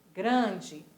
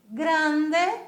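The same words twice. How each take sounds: First: Grande with nasal a and dji ending, lower; Portuguese pronunciation. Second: Grande with a crisp Spanish final e, high and loud; Spanish pronunciation. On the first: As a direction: say grande the Brazilian way. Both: Shown as a demonstration. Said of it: "só que a pronúncia é diferente".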